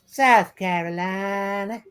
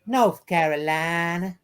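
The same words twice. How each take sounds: First: Slow drawled South Carolina accent. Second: Slow drawled North Carolina accent. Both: Shown as a demonstration. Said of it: "I'm gonna do North Carolina now".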